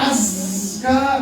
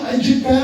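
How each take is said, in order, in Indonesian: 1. Kata itu diucapkan dengan bunyi 'z'. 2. Kata itu diucapkan dengan bunyi 'j'. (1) "Padahal azka" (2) "Kenapa jadi kayak lagu India?"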